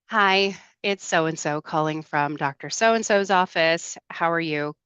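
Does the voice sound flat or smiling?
flat. It sounds flat and unsmiling.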